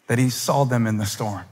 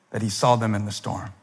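Both takes have the same delivery.

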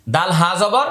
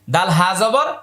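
The two takes are said the same way.

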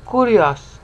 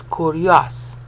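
First: "Kurios" as ku-ri-os; three syllables. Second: "kurios" with io run together as yo, slow. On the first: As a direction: give each of ku-ri-os its own beat. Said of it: "three syllables". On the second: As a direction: glide the io into yo. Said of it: "treats the io as yo". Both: Shown as a demonstration.

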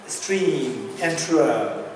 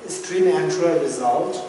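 First: Stream enterer said very slowly, word by word; slow and deliberate. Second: Said in the usual way. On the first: Shown as a demonstration. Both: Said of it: "Let me say this again".

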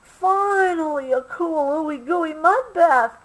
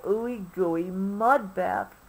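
First: High, excited cry of delight; joyful shout. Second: Slow, savoring the words; drawn-out dreamy wish; slow dreamy longing. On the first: A narrator's reading. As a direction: shout it out, finally found. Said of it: "Obie shouted". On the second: Acted. Obie still searching.

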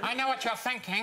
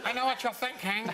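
First: Dirty Harry impression. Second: Gruff tough cop, higher pitch; bad Clint Eastwood voice; Dirty Harry impression. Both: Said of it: "one of the worst impressions ever".

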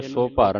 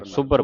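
First: ਸੋ ਭਰ as two words, long "so"; wrong split reading. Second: ਸੁਭਰ with a doubled middle consonant; short u, then press the consonant in ਸੁਭਰ; with adhak. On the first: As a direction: break it into ਸੋ ਭਰ. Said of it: "ਸੋ ਭਰ ਨਹੀਂ ਪੜ੍ਹਨਾ". (ਸੋ ਭਰ, ਵੱਖ-ਵੱਖ) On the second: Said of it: "ਅਧਿਕ ਲਾ ਕੇ". (ਸੁਭਰ, ਅਧਕ ਲਾ ਕੇ) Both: Shown as a demonstration.

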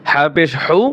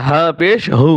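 First: হু with a tight pharyngeal h; throaty ha. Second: হু with a plain glottal h; open ha. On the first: Teacher contrasting two ha letters, হু from mid-throat. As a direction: constrict the throat on the h of হা and হু. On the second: Teacher contrasting two ha letters, হু with open h. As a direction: let the h of হা and হু flow from an open throat. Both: Shown as a demonstration. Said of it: "ছোট হা, বড় হা".

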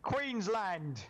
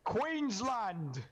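First: Queensland! called out high again, a hammed-up Australian cheer; mock Aussie yell. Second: Queensland! called out high, a hammed-up Australian cheer; mock Aussie yell. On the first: Gamer repeating his random yell, mock Australian cheer. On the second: Gamer randomly yelling a state name, mock Australian cheer. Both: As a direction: belt out Queensland like a rowdy Aussie fan. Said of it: "I don't know why I felt like saying that".

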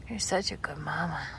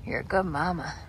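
First: Voiceless whisper, "such" leaned on; tender whisper. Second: Said in the usual way. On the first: Real, not acted. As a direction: whisper the praise right into her ear. Praising mother goat, then whispered.

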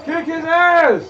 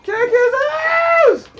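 First: Higher, louder cheer at the screen. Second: Very high, slow drawn-out scream; long screaming cheer. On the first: Gamer cheering his fighter to beat the boss, loud cheer. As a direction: urge him on, loud and high. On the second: Gamer screaming at his fighter to finish the boss, stretched scream. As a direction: hold the shout out as long as you can. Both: Real, not acted.

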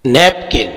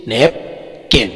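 First: Said in the usual way. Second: "napkin" slowly in two parts, नैप, किन; split into syllables. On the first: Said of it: "दो syllable है". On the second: Shown as a demonstration. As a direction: break "napkin" in two with a clear pause. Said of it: "दो syllable है जैसे". ("Napkin" کو دو حصوں میں آہستہ)

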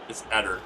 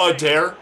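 First: Eder said as "ED-er"; short stressed E, weak ending in Eder; own pronunciation. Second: Eder said "uh-DAIR"; announcer's pronunciation. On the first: Shown as a demonstration. Player correcting the announcer, Eder as "ED-er". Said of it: "It's E D E R". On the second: Retold or imitated. Player mocking the announcer's version, Eder as "uh-DAIR". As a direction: stress the full "dair" ending of Eder. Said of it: "but the announcer's like".

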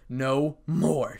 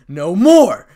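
First: Said in the usual way. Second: Very loud, high yell; shout. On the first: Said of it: "said Issei". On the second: A narrator's reading. Issei as the magic circle appears, full shout. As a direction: shout it out with finality. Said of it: "shouted Issei".

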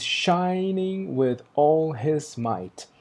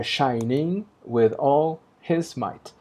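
First: Whispered and very slow, "all" in "Shining with all his might." falling; natural reading. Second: Very slow and voiced, "his" in "Shining with all his might." pushed into a beat; forced metrical reading. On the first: Teacher reading the line as written, hushed and slow. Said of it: "porque ele diz". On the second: Teacher showing the forced scansion, slow and emphatic. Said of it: "a nossa leitura forçada seria". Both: Shown as a demonstration.

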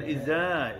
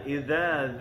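First: Iza with a buzzing z; z instead of dh. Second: Idza with dz as th in "this"; tongue tip between the teeth for Idza; soft dh. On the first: Teacher shows the mistake, iza with plain z. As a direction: put the tongue behind the teeth for iza. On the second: Teacher corrects the mistake, Idza with soft dh. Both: Shown as a demonstration. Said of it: "bukan iza".

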